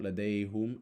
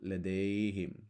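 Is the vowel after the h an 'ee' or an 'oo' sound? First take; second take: oo sound; ee sound. First: The vowel after the h is an 'oo' sound. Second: The vowel after the h is an 'ee' sound. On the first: The speaker calls it wrong. "Notice not" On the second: The speaker calls it right. "because the last sound is an E"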